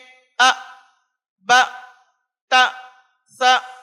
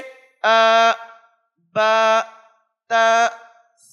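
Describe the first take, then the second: First: Each vowel is cut off abruptly and short. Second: Each vowel has a moderate, even length. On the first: The speaker calls it wrong. "बाज़ तलबा इसको किस तरह से अदा करते हैं" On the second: The speaker calls it right. "बल्कि दरमियानी सिफत"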